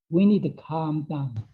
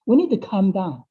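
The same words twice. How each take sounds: First: Slow calming. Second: Said in the usual way. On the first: Shown as a demonstration. Teacher guiding listeners to calm down, slowly and gently. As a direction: ease the pace down as if calming yourself.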